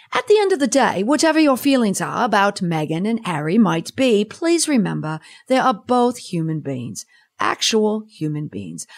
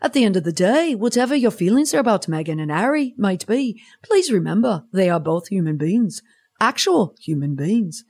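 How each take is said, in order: First: Hammed-up English accent; amateur put-on English accent; bad English accent. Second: Mock Liverpool accent; Liverpudlian accent. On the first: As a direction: read it in a badly faked English accent. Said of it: "bad English accent aside". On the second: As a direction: have a go at a singsong Scouse accent. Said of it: "maybe I should have done it in a Liverpoolian accent".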